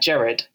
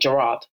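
First: It is said in a non-American way. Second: It is said in an American way. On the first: "we're used to saying it like Gerard" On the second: "they're used to saying Gerard"

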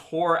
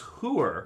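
First: The word has the standard pronunciation. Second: The word has the North Jersey pronunciation.

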